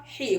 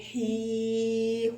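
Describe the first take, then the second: First: حي as one quick syllable; short vowel. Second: حي with the i held long; long vowel. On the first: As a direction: say حي short, no stretching. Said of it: "هيقول لك قصيرة". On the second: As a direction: stretch حي on a steady note. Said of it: "الياء هتيجي تطولها". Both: Shown as a demonstration.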